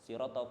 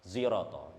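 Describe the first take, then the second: First: The first consonant sounds like an s. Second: The first consonant sounds like a z.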